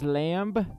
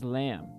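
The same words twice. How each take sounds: First: The final b is pronounced. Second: The final b is silent. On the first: This is how the word is spelled. "It's spelled as lamb" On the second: This is how the word is actually said. "but we pronounce it as lamb"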